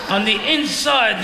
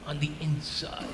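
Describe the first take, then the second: First: Said in the usual way. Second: Low, very soft aside; hushed aside. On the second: Real, not acted. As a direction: drop to a confidential near-murmur. Silent agreement, then repeated aloud.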